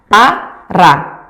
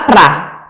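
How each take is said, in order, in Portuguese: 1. As duas sílabas são ditas devagar e separadas. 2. As duas sílabas são ditas rápido, quase fundidas. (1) "falando cada vez mais rapidinho" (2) "falando cada vez mais rapidinho"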